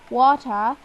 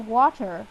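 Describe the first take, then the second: First: It is said in a British accent. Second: It is said in an American accent. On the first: "in a British accent we say water" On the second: "in American we say water"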